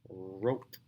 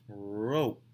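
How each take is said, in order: First: The vowel is a long o sound. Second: The same.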